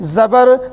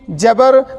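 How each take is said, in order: First: The word begins with a z sound. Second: The word begins with a j sound. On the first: The speaker calls it right. "वो है ज़बर ज़ेर पेश" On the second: The speaker calls it wrong. "ये गलत है"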